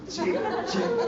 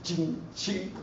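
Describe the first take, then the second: First: Much higher, laughing mock preacher squeak; pitched-up laughing imitation of the preacher; imitating the pastor. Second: Soft mock preacher sound; a hushed imitation of the preacher; imitating the pastor. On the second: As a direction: quietly mimic the pastor's chant. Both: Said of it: "how he was talking like this".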